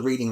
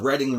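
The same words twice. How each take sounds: First: The first syllable sounds like 'reed'. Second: The first syllable sounds like 'red'. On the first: The speaker calls it wrong. "not the Reading Railroad" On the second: The speaker calls it right. "it's really pronounced the Reading"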